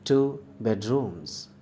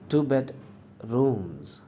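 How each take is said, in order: First: Two stands alone, bedrooms said as one. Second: Two bed is grouped, pause before rooms. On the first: "सिर्फ टू है, टू के साथ बेड को अब नहीं पढ़ना है" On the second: "टू बेड को मैं एक साथ पढ़ता हूँ, रूम्स इसके बाद में पढ़ता हूँ, थोड़ा रुक कर"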